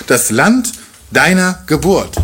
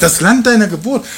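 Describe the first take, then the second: First: „Das Land deiner Geburt“, slow, with Land leaned on and falling; slow weighty stress. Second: „Das Land deiner Geburt“ lifted higher, rising on deiner; emphatic higher stress. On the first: Preacher showing Boas's emphasis, slow stress on „Land“. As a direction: draw out „Land“ and let the phrase fall weightily. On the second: Preacher repeating Boas's words with lifted, rising emphasis. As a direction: raise the pitch and rise through „deiner“. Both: Shown as a demonstration. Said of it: "Guck mal, die Betonung".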